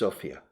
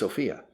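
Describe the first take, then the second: First: The stress is on the first syllable. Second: The stress is on the second syllable. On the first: The speaker calls it right. "they stress the first syllable" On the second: The speaker calls it wrong. "Everybody says Sofia"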